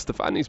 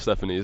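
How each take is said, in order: First: The name is said the Italian way. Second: The name is said the English way. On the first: The speaker calls it right. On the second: The speaker calls it wrong.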